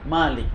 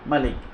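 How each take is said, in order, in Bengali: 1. প্রথম স্বরধ্বনিটি দীর্ঘ। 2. প্রথম স্বরধ্বনিটি হ্রস্ব। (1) "তাকে কিন্তু মালিক বলা হয় না, তাকে কি বলা হয়?" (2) "মালিক যদি আলিফ ছাড়া পড়েন, তাহলে শুধু ওই সর্বোচ্চ যিনি"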